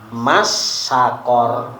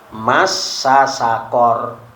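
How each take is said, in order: First: The two s sounds merge into one. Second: The two s sounds are kept separate. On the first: The speaker calls it wrong. "bukan dibaca masakor, nggak diidghamkan" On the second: The speaker calls it right. "Contohnya di sini masasakor"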